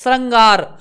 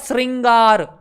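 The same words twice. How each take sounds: First: The first syllable has an 'ra' sound, not 'ri'. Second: The first syllable has an 'ri' sound, not 'ra'.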